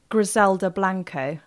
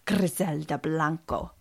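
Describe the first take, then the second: First: The name is said with an English accent. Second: The name is said with a Spanish accent. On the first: The speaker calls it wrong. "which doesn't sound good when you say it" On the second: The speaker calls it right. "You've got to say it in a Spanish"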